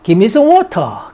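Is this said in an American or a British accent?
British. It is said in a British accent. "give me some water 하면 영국식"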